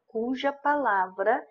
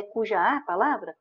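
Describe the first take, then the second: First: "cuja palavra" said slowly, with no "a" between "cuja" and "palavra"; correct form. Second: "cuja a palavra" said quickly, with an extra "a" after "cuja"; wrong form. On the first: Teacher giving students the right form, slow and deliberate. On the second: Teacher showing students the wrong form, quick and offhand. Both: Shown as a demonstration. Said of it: "Que não é cuja a palavra".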